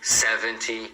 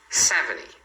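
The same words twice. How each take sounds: First: The T after the N is clearly pronounced. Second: The T after the N is dropped. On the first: This is how learners usually say it. "os alunos têm a tendência de falar" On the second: This is how native speakers often say it. "pode ser pronunciado assim, porque você vai escutar assim"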